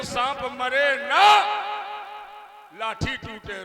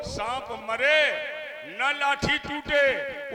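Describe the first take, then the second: First: Attach "न" to "मरे", then a long break; "सांप मरे न" up, "लाठी टूटे" falling away after a gap; pause after न. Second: Drawn-out "न लाठी टूटे" as one unit; pause before न. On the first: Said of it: "उसी को इस प्रकार कह लो". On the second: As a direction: pause after "मरे", join "न" to "लाठी टूटे". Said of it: "बात तो एक है लेकिन अर्थ दो". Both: Shown as a demonstration.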